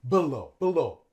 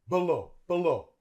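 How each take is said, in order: No difference in how they are said.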